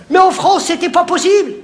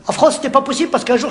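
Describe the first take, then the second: First: Emphatic declaration. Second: Said in the usual way. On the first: Acted. Emphatic punchline setup.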